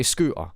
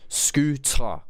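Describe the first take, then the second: First: Scooter as "scoo'a", glottal stop for the T; "scooter" with a catch where T belongs; own accent, dropped T. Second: Scooter with a crisp, fully sounded T; careful "scoo-ter", higher and deliberate; clear T. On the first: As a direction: skip the T in scooter. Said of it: "Now, with my accent". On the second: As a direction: pronounce the T in scooter distinctly. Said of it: "has a T in there". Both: Shown as a demonstration.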